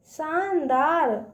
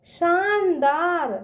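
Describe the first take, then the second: No difference in how they are said.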